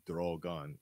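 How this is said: The word is said with a foreign accent. "It was like drogon, like that"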